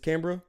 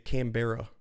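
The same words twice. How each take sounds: First: It is pronounced the local Australian way. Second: It is pronounced the way Americans say it. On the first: The speaker calls it right. "It's Canberra" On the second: The speaker calls it wrong. "Americans I've heard of say Canberra"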